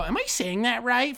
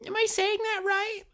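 First: High, fake-innocent teacher asking; teacher checking a name she just butchered; mock teacher. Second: Very high, cartoonish teacher checking herself; teacher asking after mangling the name; mock teacher. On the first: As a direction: ask it like you already know you got it wrong. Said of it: "and then they go". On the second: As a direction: push the fake innocence to a squeak. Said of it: "Of course, um".

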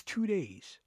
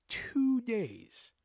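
First: Said in the usual way. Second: "Two days" stretched high, soft and airy; emphatic disbelief. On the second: Real, not acted. Teller stunned at the mess returning, "Two days" stretched in hushed disbelief.

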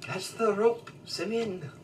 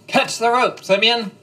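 First: Put-on a tentative try at a Scottish accent, pitched much higher; half-hearted Scottish accent on the yell; attempted Scottish accent. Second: Full-throated yell, much higher and louder; shouting. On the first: The GM asks for the rope call redone, in a tentative Scottish accent. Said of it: "Can you say that in, like, a Scottish accent?". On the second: Acted. A rescuer yells to Simeon as the floor drops, shouting. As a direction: yell it across the room to him. Yelling rope to falling friend.

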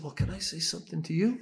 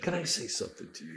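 First: Higher, challenging question, retold; pointed comeback. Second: Hushed, brisk question; softer, quick, level request; quiet request. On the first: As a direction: throw the question back with rising pitch. Throws official's question back at him. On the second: Retold or imitated. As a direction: imitate an official asking softly and fast. Official's request, repeated.

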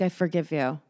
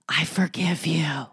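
First: Softly spoken, understated flowery line; flowery forgiveness. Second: Slow, whispered forgiveness; intense whisper. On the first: Mocking how flowery forgiveness sounds, softly sweet. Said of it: "doesn't that sound so flowery". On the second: Insisting while looking into someone's eyes, slow mock-intimate whisper. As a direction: whisper it slowly, as if deeply meant. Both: Acted.

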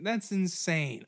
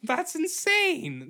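First: Said in the usual way. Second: Way higher, slow amazement; shocked drawn-out exclaim; high amazed. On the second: Real, not acted. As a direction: stretch it out in disbelief. Repeated exclamation.

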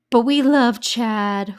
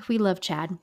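First: Slow, loud and stretched, leaning hard on love; but we love Chad, swooning over him; gushing. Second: Said in the usual way. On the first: Real, not acted. To her listeners about Chad, a drawn-out loud gush.

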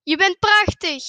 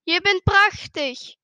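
First: Loud call of praise. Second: Slow, higher answering call; echoed praise. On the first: Father calls to the mountains, loud praising call. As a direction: shout the compliment into the distance. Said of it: "en roept". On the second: Mountain voice answers the father, slow echoed call. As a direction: draw it out like an echo. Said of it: "En de stem". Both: A narrator's reading.

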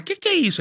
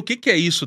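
First: High shocked mother; mom's voice. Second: Said in the usual way. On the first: Retold or imitated. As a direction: squeal it like a startled mom. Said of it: "vem ela". (voz aguda de mãe espantada)

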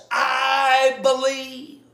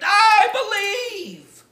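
First: A slow, drawn-out shout, louder and higher; mock triumphant yell of faith; retold joyful scream. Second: A drawn-out yell, much higher and much louder; slow, all-out triumphant scream at the top of his lungs; full scream. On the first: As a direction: belt it out like the author leaping from bed. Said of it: "scream at the top of his lungs". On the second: Retold or imitated. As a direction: scream it to the rafters, arms thrown up. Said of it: "I screamed".

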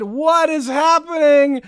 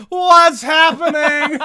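First: Accusatory. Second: Slow, high mock yell at a house; hammed-up horror movie lady shouting; Poltergeist lady yelling. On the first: Retold or imitated. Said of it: "That sounds accusatory". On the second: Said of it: "yelling at the house that is being imploded".

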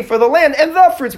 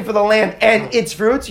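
First: "the" lifted high before "fruits"; the correct wording, raised to stand out; right version. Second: "its" said slow and even, not the contrast word; slow, careful "For the land and its fruits"; the version you don't say, spelled out slowly; wrong version. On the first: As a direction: pitch jumps up on "For the land and the fruits". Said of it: "You say". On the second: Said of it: "then you don't say". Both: Shown as a demonstration.

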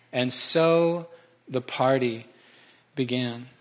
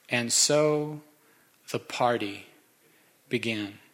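First: Drawn-out, slow savoring of the line. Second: Slow, fading, savored delivery; savoring the line. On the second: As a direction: let the words linger and fade softly. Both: Shown as a demonstration. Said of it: "It's my favorite verse".

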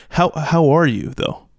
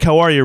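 First: "how are you" drawn out with weight; slow down and really ask "how are you"; slow, pointed question. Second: "How are you?" rattled off as a passing hello; quick hi. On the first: Host showing co-hosts the question that makes you think, slow and pointed. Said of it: "But if someone's like". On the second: Host showing co-hosts a quick hi, hurried greeting. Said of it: "real quick, it's like a quick hi". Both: Shown as a demonstration.

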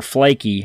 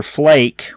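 First: "Flaky" as two syllables, FLAY-kee; sounded final E. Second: "Flake" as one syllable; silent final E. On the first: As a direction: say "Flaky" with an ee ending. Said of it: "I've heard it both ways". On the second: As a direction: say "Flake" to rhyme with lake. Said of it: "not sure how they pronounce it". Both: Shown as a demonstration.

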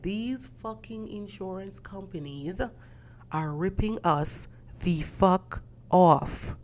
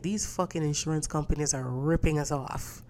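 First: Slow, drawn-out curse. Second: Said in the usual way. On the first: Retold or imitated. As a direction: drag each word out, much softer at first. Repeats complaint, slower and stronger.

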